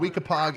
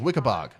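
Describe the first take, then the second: First: The name is pronounced the way it is spelled. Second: The name is pronounced the local way, like Wickabog. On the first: The speaker calls it wrong. "so Weekapaug is Wickabog" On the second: The speaker calls it right. "It's pronounced Wickabog"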